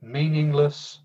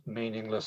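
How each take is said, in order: First: Said in the usual way. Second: Quiet echo. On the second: Shown as a demonstration. Echo of the teacher's cry.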